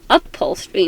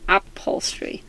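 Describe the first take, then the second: First: The word begins with an 'up' sound. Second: The word begins with an 'app' sound. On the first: The speaker calls it right. "It's like up, not app" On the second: The speaker calls it wrong. "not app"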